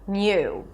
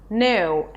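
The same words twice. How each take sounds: First: A Y sound comes between N and the vowel. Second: The N goes straight into the vowel. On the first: "An N sound and then a Y and then the U as in food" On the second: "You can just say new, an N sound and then U"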